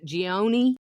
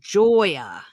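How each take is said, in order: First: The surname is not pronounced like 'Joya'. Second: The surname is pronounced like 'Joya'. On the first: The speaker calls it wrong. "the way I pronounced it" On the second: The speaker calls it right. "J O Y A phonetically spelled"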